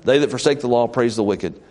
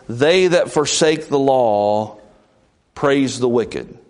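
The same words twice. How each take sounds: First: Said in the usual way. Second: Slow, weighty scripture reading; slow stately verse; solemn reading. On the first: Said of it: "repeated plainly". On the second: Shown as a demonstration. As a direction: lay each word down deliberately. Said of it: "reading scripture slowly".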